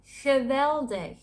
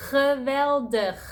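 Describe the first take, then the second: First: Geweldig slowly, soft hissed G first and last; higher, slow Geweldig with angry-cat G; soft Dutch G. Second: Geweldig slowly, grinding G at both ends; loud, higher geweldig, scraping the throat on each G; harsh Dutch G. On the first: Teaching amazing in Dutch, Geweldig with soft G. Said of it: "that's the soft G sound". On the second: Demonstrating the other G, geweldig with harsh G. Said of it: "With the harsh G sound". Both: Shown as a demonstration.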